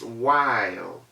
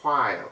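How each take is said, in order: First: The word starts with a plain w sound. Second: The word starts with a breathy h-like puff. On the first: The speaker calls it right. "the W H assumed the sound of just the W" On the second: The speaker calls it wrong. "That word is not while"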